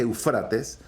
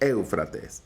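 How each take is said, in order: First: The stress is on the second syllable. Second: The stress is on the first syllable. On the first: This is the original form of the name. "parece que el original se, se dice Eufrates" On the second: This is the form people are used to hearing. "para que suene Éufrates, hay que ponerle una E, un tilde en la E primera"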